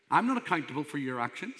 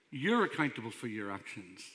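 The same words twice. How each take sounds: First: Quick, with NOT stressed and a rising end; emphatic "not", tune left rising. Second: "You're" stressed, then dropping low; emphatic "You're", lower falling finish. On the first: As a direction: lean on "not", lift the ending. Preacher contrasts himself with listeners. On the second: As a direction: hit "You're", let the rest sink. Preacher turns it onto listeners. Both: Retold or imitated.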